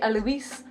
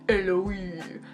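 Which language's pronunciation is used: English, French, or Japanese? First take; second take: English; Japanese. First: The name is said with an English pronunciation. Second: The name is said with a Japanese pronunciation. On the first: "like how they pronounce it in the dubbed version" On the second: "in the Japanese, it's like"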